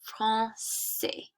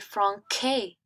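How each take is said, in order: First: The c is pronounced as a soft s sound. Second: The c is pronounced as a hard k sound. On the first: The speaker calls it right. "to make it smooth" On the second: The speaker calls it wrong. "that's too harsh for the French language. It's like very like k"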